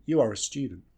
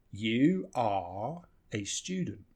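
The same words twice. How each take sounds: First: "are a" in "You are a student" run together weakly; reduced "are". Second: "You are a student" very slow, "are" and "a" in full; full, unreduced words. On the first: Teacher showing how we almost always say it, reduced. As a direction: link "are a" quickly as uh-ruh. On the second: Teacher showing the form before reducing, full words. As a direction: give "are" a long full vowel, each word separate. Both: Shown as a demonstration. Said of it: "almost always we just reduce this".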